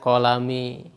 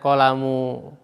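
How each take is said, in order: First: The word ends with the vowel i. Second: The word ends with the vowel u. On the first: "Tidak boleh kita membacanya" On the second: "Tidak boleh kita membacanya"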